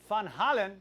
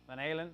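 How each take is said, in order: First: The name is said with Dutch pronunciation. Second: The name is said with English pronunciation.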